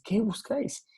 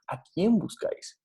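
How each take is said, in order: First: "¿Qué buscáis?" whispered, higher, weight on "Qué"; hushed "¿Qué buscáis?" with "Qué" lifted; stress on QUÉ. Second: Said in the usual way. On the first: Shown as a demonstration. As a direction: breathe it out, leaning on "Qué". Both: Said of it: "Sino que es".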